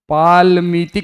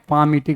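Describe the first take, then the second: First: The L sound is clearly pronounced. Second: The L sound is left silent. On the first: The speaker calls it wrong. "पालमीटिक नहीं पढ़ते हैं" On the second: The speaker calls it right. "पामीटिक पढ़ते हैं, एल को silent रखते हैं"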